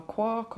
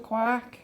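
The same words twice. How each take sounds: First: QUARK said as "kwork", with an aw vowel; alternative pronunciation. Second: QUARK said as "kwak", with an open a; first pronunciation. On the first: Shopper trying another way, QUARK said as "kwork". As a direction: say QUARK to rhyme with fork. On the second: Unsure shopper naming a tub, QUARK said as "kwahk". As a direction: say QUARK with a flat "ah" vowel, like "kwahk". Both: Real, not acted. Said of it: "or however you say it".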